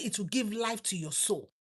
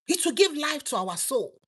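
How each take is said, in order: First: Hushed quote. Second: Said in the usual way. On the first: Shown as a demonstration.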